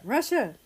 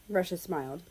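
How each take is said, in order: First: Higher call across the yard; excited hail from afar. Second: Said in the usual way. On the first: Acted. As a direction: call his name so he hears you. Minnesota calling them over.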